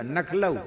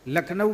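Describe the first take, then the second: First: "नखलऊ" with n and l swapped round; Braj pronunciation. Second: Said in the usual way. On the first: Shown as a demonstration. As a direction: say "नखलऊ", starting on na, l later. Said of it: "नखलऊ बोलते हैं". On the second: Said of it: "लखनऊ बोले नहीं".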